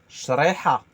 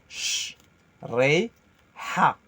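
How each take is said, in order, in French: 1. Le mot se dit d'un seul tenant, sans coupure. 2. Les syllabes se disent séparément, avec des pauses entre elles.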